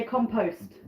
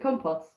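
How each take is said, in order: First: Compost said American way, KAHM-post with post as in post; American pronunciation. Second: Compost said British way, KOM-poss with post as in lost; British pronunciation. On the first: Vlogger showing how Americans say compost, KAHM-post. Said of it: "Americans say compost". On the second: Vlogger giving the British compost, KOM-poss as in lost. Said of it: "We pronounce it compost". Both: Shown as a demonstration.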